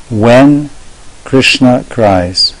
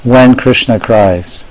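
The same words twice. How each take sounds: First: "When", held pause, then "Krishna cries" very slowly; catchy title. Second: Slow, deliberate title read; lecture title. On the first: Teacher showing off a catchy lecture title, dramatic pause after "When". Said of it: "It's very catchy". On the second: Teacher suggesting a title for yesterday's lecture, slow title read. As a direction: announce "When Krishna cries" slowly as one phrase. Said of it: "title a lecture". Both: Shown as a demonstration.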